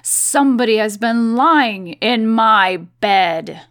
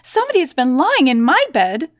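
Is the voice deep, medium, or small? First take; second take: deep; medium. First: It is said in a deep, gruff bear voice. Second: It is said in a middle-pitched bear voice.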